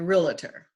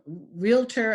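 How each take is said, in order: First: An extra vowel is added in the middle. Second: It is said with no extra vowel.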